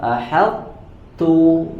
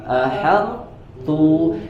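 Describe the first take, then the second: Both takes have the same delivery.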